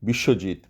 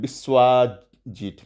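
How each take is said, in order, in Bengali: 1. নামটি খাঁটি বাঙালি উচ্চারণে বলা হচ্ছে। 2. নামটি বিদেশি আমেরিকান উচ্চারণে বলা হচ্ছে। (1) "আমরা কিভাবে বানানটা লিখি?" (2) "সে ওইটা কি আহ, উচ্চারণ করবে? ... এইভাবে করবে।"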